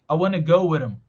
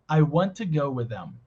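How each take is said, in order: First: The words are reduced the most. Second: The words are only lightly reduced.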